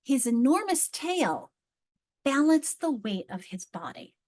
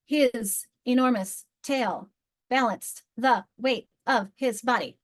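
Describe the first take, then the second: First: Slow read with a pause after "His enormous tail" before "balanced"; choppy phrasing. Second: Slow, smooth read pausing after tail; well-phrased reading. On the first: Teacher modelling a badly placed pause. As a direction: break the line after "tail" like a halting reader. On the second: Teacher modelling good phrasing for the class. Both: Shown as a demonstration. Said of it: "Notice where I'm pausing".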